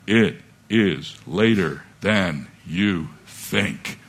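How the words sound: It is said in a dramatic, spooky radio voice.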